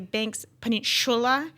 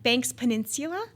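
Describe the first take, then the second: First: It is said in a New Zealand accent. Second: It is said in a non-New Zealand accent. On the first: "in New Zealand they say" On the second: "is how I would say it"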